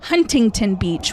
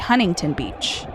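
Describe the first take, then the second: First: The middle T sound is clearly pronounced. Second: The middle T sound is dropped. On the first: "we don't say Huntington Beach" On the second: "we say Huntington Beach"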